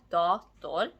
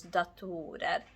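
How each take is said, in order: First: "dator" with a stressed "da"; "dator" front-stressed, with "da" louder; stress on first syllable. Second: "datorer" with the stress moved onto "to"; "datorer" stressed in the middle, not at the start; stress on second syllable. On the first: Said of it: "stress falls on da". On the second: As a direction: lean on a long "to" in "datorer". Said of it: "stress jumped from the first syllable onto the second syllable". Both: Shown as a demonstration.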